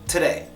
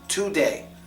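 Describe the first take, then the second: First: The first vowel is a quick uh sound. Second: The first vowel is a full O sound. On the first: The speaker calls it right. "The O gets the schwa sound" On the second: The speaker calls it wrong. "you would have an accent if you said it like that, a foreign accent"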